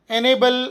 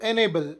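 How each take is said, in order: First: enable said higher and louder, each syllable spelled out; enable announced crisply like a teacher; clear model word. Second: Said in the usual way. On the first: Shown as a demonstration. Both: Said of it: "ಸಕ್ರಿಯಗೊಳಿಸು".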